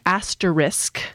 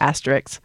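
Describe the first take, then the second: First: It is said slowly, ending with S then K. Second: It is said normally, ending with K then S. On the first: This is the standard form. "It is technically asterisk. But you'll notice that I have to slow down to say it that way" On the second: This is a common personal variant. "My pronunciation is asterisk, and I've put the K before the S"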